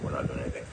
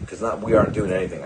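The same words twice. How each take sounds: First: Much softer and lower, fading away; trailing off quietly. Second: Said in the usual way. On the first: Real, not acted. Musing to viewers that humans do nothing, softly and much lower. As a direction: let it drop to almost nothing. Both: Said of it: "I found out".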